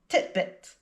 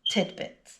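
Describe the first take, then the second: First: The middle consonant is a t sound. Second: The middle consonant is a d sound. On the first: The speaker calls it wrong. "pronounce it titbit" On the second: The speaker calls it right. "the correct pronunciation is tidbit"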